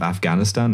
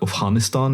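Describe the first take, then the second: First: It is said with a plain anglicized sound. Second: It is said with an over-pronounced foreign sound. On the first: "in like a normal English conversation" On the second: "over-pronouncing it to show that I, you know, kind of like I'm au fait with the thing"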